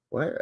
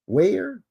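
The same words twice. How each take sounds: First: "Weyer" said as "why-er", softer and quieter; trying "Weyer" again with a "why" sound, half to yourself; "Weyer" muttered as why-er; second try at the name. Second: "Weyer" said as "way-er", rising, unsure; testing "Weyer" with a "way" sound and a questioning lift; "Weyer" tried as way-er, like a guess; trying the name. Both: Shown as a demonstration. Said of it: "I don't know who these ladies are".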